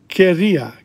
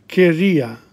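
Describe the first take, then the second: No difference in how they are said.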